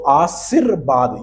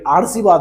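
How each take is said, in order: First: The r sound comes after the second syllable. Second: The r sound comes after the first syllable. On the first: The speaker calls it right. "ये बिल्कुल सही answer हो जाएगा" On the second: The speaker calls it wrong. "आर सी बाद ये गलत है मेरे दोस्त"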